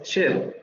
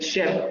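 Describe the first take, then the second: First: The vowel is further forward, between i and e. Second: The vowel sounds like a plain Spanish e. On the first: The speaker calls it right. "es chef" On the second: The speaker calls it wrong. "ni es chef"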